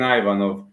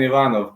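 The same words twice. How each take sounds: First: The name is pronounced the American way. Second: The name is pronounced the Bulgarian way. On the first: "the U S A guys are saying Ivanov" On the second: "We we Bulgarians are saying Ivanov"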